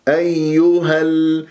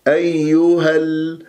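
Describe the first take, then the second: The two takes are said the same way.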